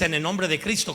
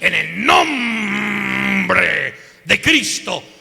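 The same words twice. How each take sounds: First: It is said in a plain, ordinary voice. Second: It is said guttural, with nombre drawn out.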